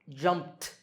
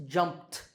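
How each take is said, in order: The two takes are said the same way.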